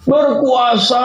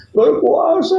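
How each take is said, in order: First: Half shout. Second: High, wailing cry on the word; sobbing answer. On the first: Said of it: "setengah teriak ngomongnya". (setengah berteriak, nada tinggi) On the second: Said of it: "Dijawab sambil nangis, gerung-gerung". (menjawab sambil menangis meraung) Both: Acted.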